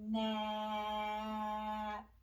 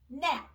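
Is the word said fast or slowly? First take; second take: slowly; fast. First: The word is drawn out slowly. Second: The word is said quickly. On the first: "Let's put mm, ah, p together slowly" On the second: "Saying it fast"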